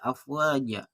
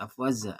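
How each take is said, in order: First: The last consonant is a j sound. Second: The last consonant is a z sound. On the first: The speaker calls it right. "Ja bukan afwaza, afwaja" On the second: The speaker calls it wrong. "Ja bukan afwaza"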